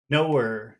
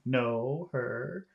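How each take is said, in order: First: The two words run together into one. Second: The two words are said separately.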